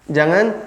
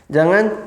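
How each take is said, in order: Both takes have the same delivery.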